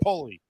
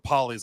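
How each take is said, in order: First: The first vowel is long, as in pole. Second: The first vowel is short, as in doll. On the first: The speaker calls it right. "it's Polly. Because my grandpa was tall like a pole" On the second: The speaker calls it wrong. "Everyone always calls it pollies"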